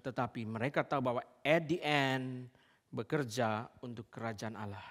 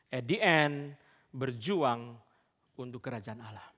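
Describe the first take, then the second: First: Said in the usual way. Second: "At the end berjuang" drawn out very slowly, each word weighted; slow emphasis. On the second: Shown as a demonstration. Preacher driving the point home to the congregation, slow and emphatic. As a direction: lean hard on "At the end", slowly.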